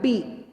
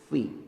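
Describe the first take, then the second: First: It starts with a p sound. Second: It starts with an f sound. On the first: The speaker calls it wrong. "Jangan pi" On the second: The speaker calls it right. "Perut bibir bawah bertemu dengan gigi seri atas"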